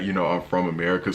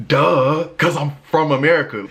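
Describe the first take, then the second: First: Said in the usual way. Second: High, loud, stating the obvious; loud and fed up; exasperated. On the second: Real, not acted. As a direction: shout the obvious in disbelief.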